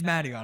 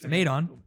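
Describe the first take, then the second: First: The name is said with an 'ee' sound. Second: The name is said without an 'ee' sound. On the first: The speaker calls it right. "It's Madion" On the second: The speaker calls it wrong. "I just keep saying Madon because it's it looks like that"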